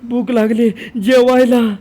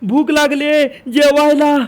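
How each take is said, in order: First: The voice is pitched in the middle. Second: The voice is pitched high. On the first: "आता मध्य सप्तक" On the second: "हे झालं तार सप्तक"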